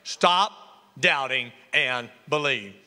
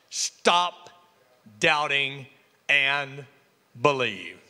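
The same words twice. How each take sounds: First: Preacher repeats the word for today; emphatic. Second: Each word set apart by pauses; preacher drawing out stop doubting and believe; slow emphatic. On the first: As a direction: stress on believe, falling. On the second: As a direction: spell it out word by word, falling to the end. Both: Shown as a demonstration. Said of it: "That's the word for today".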